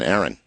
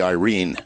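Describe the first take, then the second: First: The name begins with an 'air' sound. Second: The name begins with an 'eye' sound. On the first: The speaker calls it wrong. "in my way of thinking, Aaron" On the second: The speaker calls it right. "correctly pronounced, as it would be read by a Filipino"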